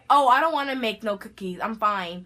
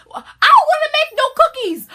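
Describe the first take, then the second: First: Said in the usual way. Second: Very high, loud, sassy whine; loud sassy put-on voice; sassy refusal. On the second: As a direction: refuse with full attitude.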